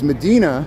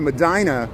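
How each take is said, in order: First: The name is said the Spanish-Arabic way. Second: The name is said the local Chicago way. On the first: "the correct Spanish um, Arabic way, which is Medina" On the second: "I would pronounce it Medina"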